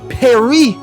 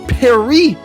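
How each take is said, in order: The two takes are said the same way.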